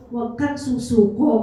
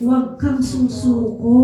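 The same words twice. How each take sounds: First: "Huwag kang susuko" lifted at the end like a question; rising plea. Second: Slow, weighty, each word pressed; slow firm plea. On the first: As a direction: let "susuko" rise, pleading. (paakyat na tono sa "susuko", nakikiusap) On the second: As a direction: lean into "Huwag kang susuko" slowly and firmly. (dahan-dahan at mariing "Huwag kang susuko") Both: Retold or imitated. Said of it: "sabi nung anak ni Sister Yumi".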